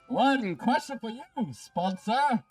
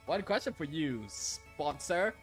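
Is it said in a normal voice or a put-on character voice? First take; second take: character voice; normal voice. First: It is said in a put-on character voice. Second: It is said in his normal voice.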